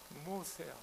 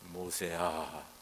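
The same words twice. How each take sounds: First: It is said in a higher tenor voice. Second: It is said in a low baritone voice. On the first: "테너로" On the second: "바리톤 모세야 뭐 이렇게"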